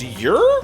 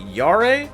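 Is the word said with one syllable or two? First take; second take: one; two. First: It is said as one syllable, like yer. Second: It is said with two syllables, like yah-reh. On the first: The speaker calls it right. "it's pronounced Yer" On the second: The speaker calls it wrong. "did Kaiba get really into Stardust Crusaders"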